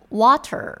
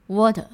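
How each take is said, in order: First: "water" with a rolled American R at the end; American "water" with the R sounded; American pronunciation. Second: "water" with no R at the end, ending on a clean open vowel; British "water" without the curled R; British pronunciation. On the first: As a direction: say "water" the American way, curling the tongue on the final R. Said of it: "我们美式就会念". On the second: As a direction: say "water" the British way, dropping the final R. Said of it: "英式就会念". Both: Shown as a demonstration.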